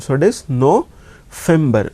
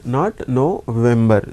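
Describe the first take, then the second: First: "November" said no-FEM-ber with an f sound; German V as f. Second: "November" with an English voiced v, no-VEM-ber. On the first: Teacher showing students German V as f. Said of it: "we read it like fa sound". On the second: Teacher contrasting the wrong English v for students. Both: Shown as a demonstration.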